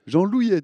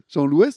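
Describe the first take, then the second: First: The name ends with a 'y' glide sound. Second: The name ends with an 'est' sound. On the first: The speaker calls it right. "Moi je dis Jean-Louillet" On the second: The speaker calls it wrong. "on prononce Jean-Louest ?"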